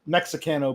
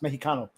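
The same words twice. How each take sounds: First: The x is said as a ks sound. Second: The x is said as an h sound. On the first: The speaker calls it wrong. "it's spelled Mexicano" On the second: The speaker calls it right. "the X makes an H sound"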